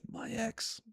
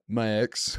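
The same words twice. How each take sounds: First: It is said weakly, without toughness. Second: It is said in a tough, badass way.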